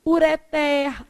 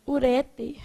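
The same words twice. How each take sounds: First: URETER stressed on TER, ureTER; slow, held open final syllable in URETER; stress on last syllable. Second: URETER stressed on the middle, uRÉter; common mispronunciation. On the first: Shown as a demonstration. Teacher models the correct reading, final stress. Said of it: "Aí o povo vai lá e fala o quê?". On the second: Retold or imitated. Teacher imitates what people say, middle stress. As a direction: drop off after RE in URETER. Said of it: "o povo vai lá e fala o quê?".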